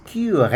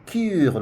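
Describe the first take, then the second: First: "cure" as kyu-RÉ, two clear syllables; correctly pronounced E. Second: "cure" as one syllable, kyoor, ending on the R; wrongly silent E. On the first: Teacher correcting the mistake for learners, "cure" said kyu-ré. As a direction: end "cure" on an open "ray" sound. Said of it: "We pronounce that E because". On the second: Teacher showing learners what not to say, one-syllable "cure". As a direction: drop the final E of "cure". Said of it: "we will not say cure". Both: Shown as a demonstration.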